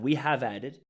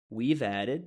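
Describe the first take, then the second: First: Both words are said in full. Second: The words are contracted into one syllable. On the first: The speaker calls it wrong. "Not we have added" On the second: The speaker calls it right.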